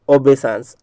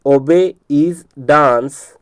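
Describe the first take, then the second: First: Said in the usual way. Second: "obey is dance" very slowly, word by word; broken into parts. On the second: Shown as a demonstration. Teacher giving a memory trick, broken into parts. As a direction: stretch and separate each word of "obey is dance". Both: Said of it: "इसलिए इसको तोड़ करके बता रहा हूँ".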